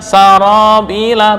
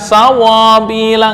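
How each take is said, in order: First: The middle consonant is a light tapped r. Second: The middle consonant is a w sound. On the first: The speaker calls it right. "Mana praktek getaran satu?" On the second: The speaker calls it wrong. "bukan sawabila"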